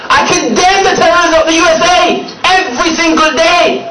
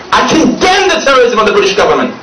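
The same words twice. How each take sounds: First: Higher, punching every word; raised emphatic repeat. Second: Said in the usual way. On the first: Real, not acted. Preacher condemning a government, rising emphatic repeat. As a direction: lift the repeat up high and press it.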